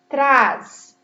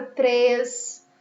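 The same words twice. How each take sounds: First: Trás with a wide-open A, loud and standing alone; open vowel. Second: Três with a closed E, slowly drawn out; closed vowel. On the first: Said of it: "ele sai mais aberto". (trás com som bem aberto, em voz forte) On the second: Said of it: "eu fechei um pouquinho o som". (três com som fechado e alongado) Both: Shown as a demonstration.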